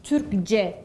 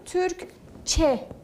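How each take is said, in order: First: The suffix starts with a voiced c sound. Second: The suffix starts with a voiceless ç sound. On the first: The speaker calls it wrong. "Türkçe demiyorum" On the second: The speaker calls it right. "bakın Türkçe diyorum"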